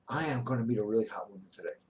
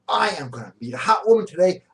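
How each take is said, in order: First: It is said flatly, without energy. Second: It is said with lively energy and emotion.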